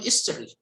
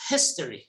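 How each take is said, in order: First: The word starts without an h sound. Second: The word starts with an h sound. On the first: This is how it was said in the eighteenth century. "the H is silent" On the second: This is how it is said nowadays. "the H is not silent anymore"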